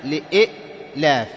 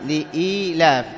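First: لإئلاف slowly, broken at the second hamza; slow لإئلاف with a held glottal catch; original two-hamza form. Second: لإيلاف slowly, with a long "ee"; slow, smooth long-vowel لإيلاف; madd vowel. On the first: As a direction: stop hard after "li-i'" in لإئلاف, then "laaf". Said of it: "أصلها إيش؟". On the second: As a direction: stretch the middle of لإيلاف, "li-eee-laaf". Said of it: "وكذا ما ماثلها". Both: Shown as a demonstration.

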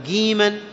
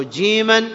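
First: "جيما" said as giiman; jim as g. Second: "جيما" with a clear j; proper jim. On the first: Teacher forbids this form, g in "جيما". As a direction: harden "جيما" to a g start. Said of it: "ولا تنطقه". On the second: Teacher requires it in Quran, j in "جيما". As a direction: pronounce "جيما" as jiiman. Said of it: "أن تنطقه". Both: Shown as a demonstration.

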